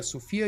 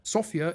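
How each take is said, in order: First: Sofia said as so-FI-a; girl's name pronunciation. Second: Sofia said as SO-fia; capital city pronunciation. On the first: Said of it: "is a name of a girl". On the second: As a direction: stress the first syllable of Sofia, like the city. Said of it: "our capital". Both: Shown as a demonstration.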